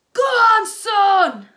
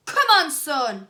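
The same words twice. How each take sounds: First: Very loud, high cheer; joyful shout. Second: Loud, slow rallying cheer; cheering shout. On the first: Dad cheering his son's winning goal. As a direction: bellow it in delight. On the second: Dad cheering his son from the crowd. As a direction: urge your son on. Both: A narrator's reading. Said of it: "shouted Dennis's dad".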